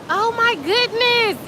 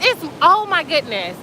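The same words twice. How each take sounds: First: Awed. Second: Said in the usual way. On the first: Real, not acted. Marvelling at the glowing water.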